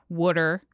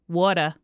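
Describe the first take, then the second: First: It is said with a South Jersey, Philly accent. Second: It is said with a North Jersey, New York accent.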